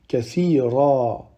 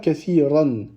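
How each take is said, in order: First: The word ends with a lengthened a vowel. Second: The word ends with a final n sound. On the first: The speaker calls it right. "on va prononcer une fatha qu'on va allonger" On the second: The speaker calls it wrong. "On ne dit pas kathiran"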